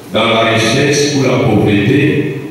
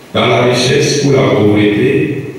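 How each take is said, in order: Both takes have the same delivery.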